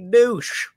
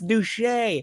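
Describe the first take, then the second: First: The name sounds like the English word douche. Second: The name is said with a different vowel or ending. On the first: The speaker calls it wrong. "I thought it was Lady Douche" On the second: The speaker calls it right. "It's Duche"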